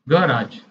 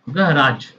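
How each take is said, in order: First: It is said in an American accent. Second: The same.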